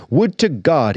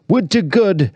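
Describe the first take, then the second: First: "God" with the short o of cot, as normal; God said plainly. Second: "good" rhymes with wood, the vowel of God bent to oo. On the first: Tragedian's oath before he bends it, "God" said normally. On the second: Tragedian's affected oath, "good" said with the oo vowel. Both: Acted. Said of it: "now pronouncing it good".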